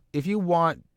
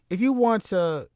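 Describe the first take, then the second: First: Lightly raised promo opener; starting a promo pitch, a bit up; rising promo start. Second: Much higher, punchier retry of if you want to; higher promo restart. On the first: Retelling a wrestler's promo, opener a bit higher. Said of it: "what can I say". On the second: Retrying the promo line, pitched up high. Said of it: "I don't know". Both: Shown as a demonstration.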